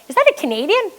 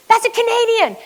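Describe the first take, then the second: First: High-pitched astonished question, rising at the end; surprised question. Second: Very high exclamation, falling at the end; excited announcement. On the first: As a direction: act out a bystander's startled question. Bystander spots her flag, asks. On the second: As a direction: act out a bystander announcing a discovery. Bystander announces it to all. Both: Retold or imitated.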